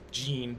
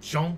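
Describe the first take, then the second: First: The name is said with an English pronunciation. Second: The name is said with a French pronunciation. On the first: "It's Jean" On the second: "but Jean, because they know how to pronounce it"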